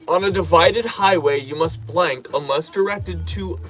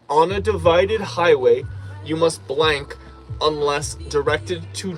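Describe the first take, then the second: First: It is read at a normal, quicker pace. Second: It is read at a noticeably slower pace.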